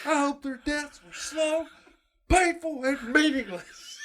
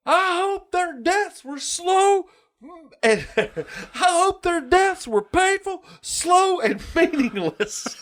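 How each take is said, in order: First: High, slow, quieter gloating curse; repeated mock teacher voice. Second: High, slow, gloating quote of the teacher; mock teacher voice. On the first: Quoting the cartoon teacher again to a friend, high and slow. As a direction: savour the curse a second time, high and slow. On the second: Retelling the cartoon teacher cursing the dead boys, high and slow. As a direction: squeeze out each wish slowly, relishing it. Quoting Mister Buzzcut's hateful wish.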